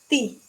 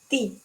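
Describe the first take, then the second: Both takes have the same delivery.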